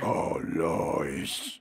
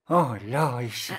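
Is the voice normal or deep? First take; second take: deep; normal. First: It is said in an even deeper voice. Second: It is said in a normal voice.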